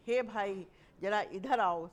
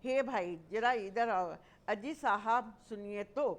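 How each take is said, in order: First: Louder call to a brother. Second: Louder call for attention. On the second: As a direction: hail someone politely from a distance. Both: Shown as a demonstration. Teacher demonstrating calling someone over. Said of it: "संबोधन कर रहे हैं उसे".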